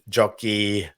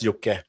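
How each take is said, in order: First: The name ends in a long ee sound. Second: The name ends in a short e sound. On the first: The speaker calls it wrong. "all the Americans do like jockey" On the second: The speaker calls it right. "the short E"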